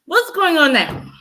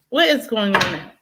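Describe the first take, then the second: First: Higher mock taunt; mocking question. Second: Said in the usual way. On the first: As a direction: taunt the doubters. Mocking Trump supporters.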